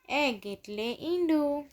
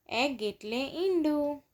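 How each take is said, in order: Both takes have the same delivery.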